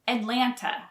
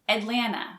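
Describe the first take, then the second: First: The second T sound is clearly pronounced. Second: The second T sound is left out. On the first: "Some people pronounce the second T" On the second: "many locals don't pronounce the second T"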